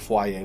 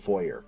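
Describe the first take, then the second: First: It is said the fancy, high-society way. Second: It is said the ordinary, everyday way. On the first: It sounds posh. "some high society types or might say foyer" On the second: It is the usual way. "generally we'll say foyer"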